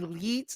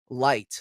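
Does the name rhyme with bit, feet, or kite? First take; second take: feet; kite. First: The vowel is long, as in feet. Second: The vowel is a diphthong, as in kite. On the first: "some people say leets, like with e's" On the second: "or light, like an actual light"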